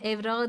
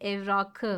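First: The final stem consonant is softened to ğ. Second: The final stem consonant stays a hard k. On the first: The speaker calls it wrong. "evrağı değil" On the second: The speaker calls it right. "buralarda ünsüz yumuşaması yoktur"

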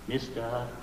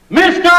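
First: It is said quietly. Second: It is said loudly.

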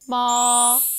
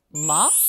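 First: The pitch stays high and long. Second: The pitch rises slightly and briefly. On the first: "일성은 높은 음을 길게 빼줍니다" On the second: "이성은 짧게 감아쳐 살짝 올라가는데요"

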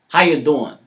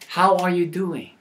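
First: The question is said quickly and casually. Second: The question is said slowly and carefully. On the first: "in a comical way" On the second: "this time a little slower with maybe a standard diction"

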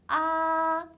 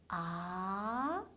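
First: The pitch stays high and level. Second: The pitch rises clearly from low to high. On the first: "높은 음에서 쭉 이어지는 음이에요" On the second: "아래에서 위로 올라가는 게 확실한 음이에요"

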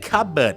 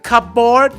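First: The p sound is silent between the syllables. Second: The p sound is pronounced between the syllables. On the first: The speaker calls it right. "ผิดนะครับต้องเป็น" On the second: The speaker calls it wrong. "เอามารวมกัน"

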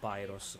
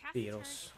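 First: The name is pronounced the English way. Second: The name is pronounced the Italian way.

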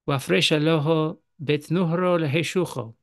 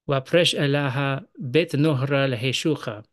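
First: It is read in a Western Syriac accent. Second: It is read in an Eastern Syriac accent. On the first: "That was the Western accent" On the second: "Now in the Eastern accent"

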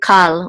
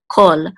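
First: The vowel is pronounced as an open 'ah'. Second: The vowel is pronounced as a rounded 'aw'. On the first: The speaker calls it wrong. "we don't say kal when we encounter this word" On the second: The speaker calls it right. "We say kol"

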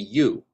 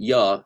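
First: The vowel is said fully as 'you'. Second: The vowel is reduced to a weak 'ya'. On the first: The speaker calls it right. "If we enunciate ya, it would be you" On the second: The speaker calls it wrong. "not ya"

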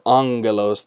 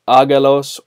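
First: The g is said with an n sound before it. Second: The g is said with no n sound before it.

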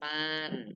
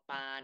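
First: The syllable is said with a falling pitch. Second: The syllable is said on a level mid pitch.

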